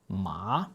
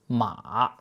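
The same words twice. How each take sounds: First: The pitch rises from mid to high. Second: The pitch dips down, then rises again. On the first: It means hand. "this note rises like you're asking a question" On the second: It means horse. "The note dips down and then comes back up"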